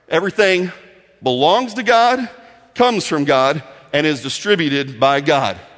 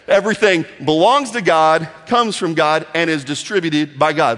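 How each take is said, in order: First: It is said at a slower pace. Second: It is said at a faster pace.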